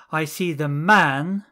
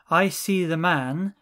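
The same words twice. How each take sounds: First: "man" said louder and lifted; stress on man. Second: Said in the usual way. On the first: Shown as a demonstration. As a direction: push the word "man" up and out. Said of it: "implying, and not the woman". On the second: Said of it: "So, "I see the man" is".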